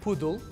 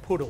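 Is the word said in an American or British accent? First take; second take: British; American. First: It is said with a British accent. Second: It is said with an American accent. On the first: "Con pronunciación británica" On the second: "Pronunciación americana"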